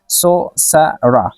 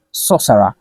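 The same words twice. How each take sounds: First: "सोसरा" slowly, in separate syllables; syllable-by-syllable pronunciation. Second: Said in the usual way. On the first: Shown as a demonstration. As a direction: break "सोसरा" into सो, स, रा with short gaps. ("सोसरा" को ठहर-ठहर कर बोलना) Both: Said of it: "इसको हम pronounce करेंगे".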